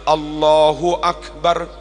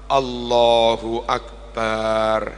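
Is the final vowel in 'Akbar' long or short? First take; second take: short; long. First: The final vowel of Akbar is kept short. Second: The final vowel of Akbar is drawn out long. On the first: The speaker calls it right. "Harusnya Allahu Akbar" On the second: The speaker calls it wrong. "Bar dibaca panjang itu salah"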